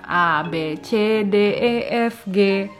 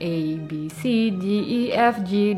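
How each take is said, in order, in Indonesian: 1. Huruf-huruf itu disebut dengan bunyi huruf bahasa Jerman. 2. Huruf-huruf itu disebut dengan bunyi huruf bahasa Inggris. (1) "kalau bahasa Jerman itu kan kayak bahasa Indonesia aja" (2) "alfabetnya bahasa Inggris kan"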